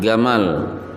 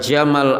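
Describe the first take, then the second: First: The name begins with a hard g sound. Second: The name begins with a j sound.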